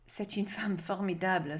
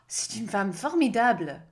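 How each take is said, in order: First: The tone is wary and a little fearful. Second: The tone is warm and admiring. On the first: She is a bit frightening. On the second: She is an extraordinary woman.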